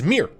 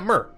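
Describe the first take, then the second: First: The word sounds like 'mere'. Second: The word sounds like 'myrrh'. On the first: This is the official pronunciation. The speaker calls it wrong. "the official pronunciation is Mir" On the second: This echoes the start of the word for ant-like warriors. The speaker calls it right. "and not Myrrh. It should be Myrrh"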